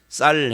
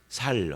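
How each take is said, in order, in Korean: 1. 첫 소리가 된소리, 딱딱한 s 소리예요. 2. 첫 소리가 평음, 부드러운 s 소리예요. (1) "경상도 사람들에게 쌀 해봐" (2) "그러면 살 하는 거고"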